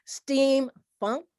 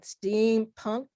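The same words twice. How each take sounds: First: Steampunk said as "steamfunk", with F; F-sound variant. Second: Steampunk with a clear P in "punk"; P-sound variant. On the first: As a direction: put an F in steampunk: "steam-funk", ending on a rise. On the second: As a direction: make the P of steampunk distinct from an F. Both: Real, not acted. Two genre names, funk then punk.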